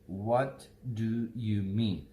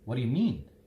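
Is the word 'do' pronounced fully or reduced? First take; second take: full; reduced. First: Every word is pronounced fully and separately. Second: The word 'do' is reduced and linked together.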